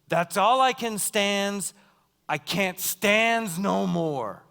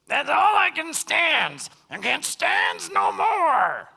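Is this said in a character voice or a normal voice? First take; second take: normal voice; character voice. First: It is said in the speaker's ordinary voice. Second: It is said in a put-on cartoon character voice.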